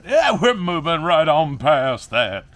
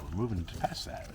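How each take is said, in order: First: Loud, high, slow drawn-out declaration; emphatic, hammed-up. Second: Said in the usual way. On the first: Vlogger brushing off rotten plants, loudly hamming it up. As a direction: belt it out, stretching every word.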